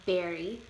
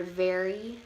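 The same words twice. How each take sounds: First: "berry" for very, opening on a b. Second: Said in the usual way. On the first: Shown as a demonstration. Presenter showing how Chicano speakers say very, "berry" with a b. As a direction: say very with a b sound, "berry". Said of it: "may pronounce a B sound instead of a V". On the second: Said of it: "the word very would sound like".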